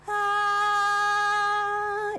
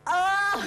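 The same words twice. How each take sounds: First: The vowel resonates in the head. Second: The vowel lacks head resonance. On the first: The speaker calls it right. "letting it resonate here" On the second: The speaker calls it wrong. "instead of going, ah, like that"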